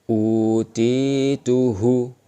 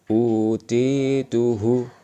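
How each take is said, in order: The two takes are said the same way.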